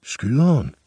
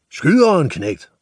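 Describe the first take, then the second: First: Higher, unsure asking of the word Skyderen; boy Nis echoing the butcher, puzzled; puzzled question. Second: High yelled order; screaming. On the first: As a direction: ask it back, bewildered, like a boy. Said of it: "spurgte Nis". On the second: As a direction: scream the demand at the boy. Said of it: "skreg slagteren". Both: Acted.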